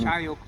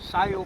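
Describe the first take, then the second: First: The word begins with a ch sound. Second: The word begins with an s sound. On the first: This is the Cup'ik dialect form. "Chayok is how you say it in" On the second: This is the Yupik dialect form. "Sayok is how you say it in Yupik"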